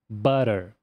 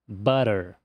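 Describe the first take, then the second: First: The middle consonant is a quick soft flap. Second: The same.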